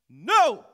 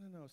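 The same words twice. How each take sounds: First: The word is said loudly and forcefully. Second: The word is said quietly and weakly. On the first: The refusal is declared out loud. The speaker calls it right. "You got to open your mouth" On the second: The refusal is only made in the mind. The speaker calls it wrong. "you trying to do it in your head"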